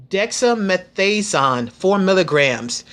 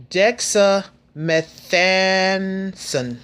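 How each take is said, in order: First: Dexamethasone said a bit slow and careful, less stretched; careful, moderately slow Dexamethasone; said slowly. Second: Dexamethasone drawn out syllable by syllable, very slow; said slowly. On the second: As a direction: spell out Dexamethasone slowly, each syllable stretched. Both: Shown as a demonstration. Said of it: "I'm gonna try to say it slow".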